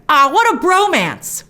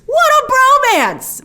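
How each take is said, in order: First: Slow, fond gush; a touch of tenderness. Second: Much higher, louder and very slow; gushing swoon; overwhelmed gush. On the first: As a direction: sigh it out with affection. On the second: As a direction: swoon over the pair. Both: Real, not acted. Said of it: "all teary-eyed and choked up".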